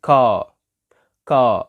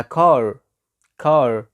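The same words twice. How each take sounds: First: "car" as British "caah", no R; silent final R. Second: "car" with the final R clearly sounded; American car. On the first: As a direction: model "car" ending on an open "ah". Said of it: "ال R كمان لما تيجي في آخر الكلمة ما ينطقهاش". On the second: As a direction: say "car" as "carrr", curled American R. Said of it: "أمال في الأمريكان بقولها". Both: Shown as a demonstration.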